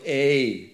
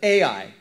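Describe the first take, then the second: First: The name is said as a single vowel sound. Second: The name is said as two separate letters. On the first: "or you want to say A" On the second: "I just say AI because I don't know how to pronounce it"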